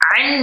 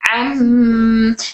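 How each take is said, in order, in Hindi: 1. अक्षर का अंत n की आवाज़ से होता है। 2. अक्षर का अंत m की आवाज़ से होता है। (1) "अन नहीं" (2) "नून की आवाज़ नहीं बल्कि मीम किया"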